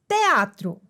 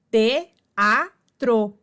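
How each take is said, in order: First: Said in the usual way. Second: "te-a-tro" said syllable by syllable; sílabas separadas. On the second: Shown as a demonstration. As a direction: split "te-a-tro" with a pause after each part. ("te-a-tro" pausado, sílaba por sílaba) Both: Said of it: "duas vogais em sílabas separadas".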